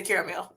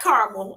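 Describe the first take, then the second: First: Caramel pronounced CARE-uh-mel; three-syllable caramel. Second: Caramel pronounced CAR-mul; two-syllable caramel. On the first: Host showing her own way, caramel said CARE-uh-mel. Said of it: "Yeah, I say caramel". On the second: Host rejecting the other way, caramel said CAR-mul. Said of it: "Not caramel. I don't". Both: Shown as a demonstration.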